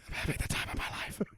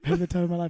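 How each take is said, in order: First: It is said at a quieter volume. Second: It is said at a louder volume.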